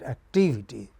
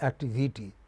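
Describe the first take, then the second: First: The stress falls on the second syllable. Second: The stress falls on another syllable, not the second. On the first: The speaker calls it right. "but activity" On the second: The speaker calls it wrong. "not activity"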